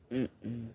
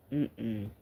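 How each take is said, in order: Both takes have the same delivery.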